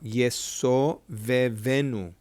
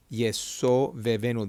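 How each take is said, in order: First: Drawn-out teacher demo; slow sounding out. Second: Said in the usual way. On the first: Shown as a demonstration. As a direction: sound out each syllable slowly, Yeso vevenu. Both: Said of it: "let's sound it out".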